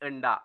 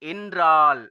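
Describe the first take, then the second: First: The word is said in a fully reduced form. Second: The word is said in its full form.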